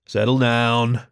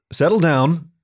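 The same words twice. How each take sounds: First: Said in the usual way. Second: Firm, a bit louder settle down; sharply. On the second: Acted. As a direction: Settle down pushed higher and harder, like a warning. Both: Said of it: "spoke a little more sharply".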